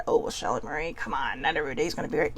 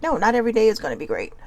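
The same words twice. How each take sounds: First: Low, hushed, quick mock objection; imitated doubter. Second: Said in the usual way. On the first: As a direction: brush it off in a lowered, hurried voice. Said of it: "I don't want people to think that".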